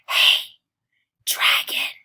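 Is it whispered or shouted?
whispered. It is whispered very softly.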